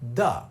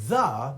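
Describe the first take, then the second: First: It begins with a hard d sound. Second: It begins with a soft th sound. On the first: "we're going to turn that into a dental duh or tuh" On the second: "So the becomes duh"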